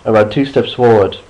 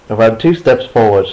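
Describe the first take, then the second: No difference in how they are said.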